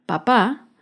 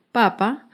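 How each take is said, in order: First: PaPÁ, weight on the closing PÁ; stress on second syllable. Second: PApa, weight on the opening PA; stress on first syllable. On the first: Teacher explaining the word for father, papá stressed on PÁ. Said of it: "lleva el acento en la segunda sílaba". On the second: Teacher explaining the word for the food, papa stressed on PA. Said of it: "lleva el acento en la primera sílaba". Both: Shown as a demonstration.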